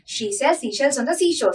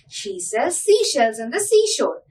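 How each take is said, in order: First: It is said at a very fast pace. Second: It is said at a fast pace. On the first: "Now let us increase the speed a little bit more" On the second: "Let us increase the speed a little"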